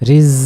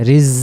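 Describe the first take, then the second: Both takes have the same delivery.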